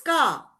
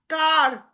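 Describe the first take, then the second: First: The final R sound is silent. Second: The final R sound is pronounced. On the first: The speaker calls it right. "The R is silent here" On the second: The speaker calls it wrong. "We say far, car. No"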